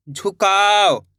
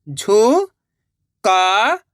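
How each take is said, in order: First: Said in the usual way. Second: झुकाव stretched slowly, rising; drawn-out syllables. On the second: Shown as a demonstration. Teacher sounding out a word, very slowly. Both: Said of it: "direct मात्रा का उच्चारण करके पढ़ेंगे".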